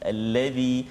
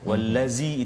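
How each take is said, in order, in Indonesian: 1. Konsonan di tengah itu bunyi 'th', lidah keluar. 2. Konsonan di tengah itu bunyi 'z', lidah tidak keluar. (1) "bila kita menyebut huruf zal, lidah kita sedikit keluar" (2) "kalau tak jadi zai ... itu zai itu tak keluar lidah"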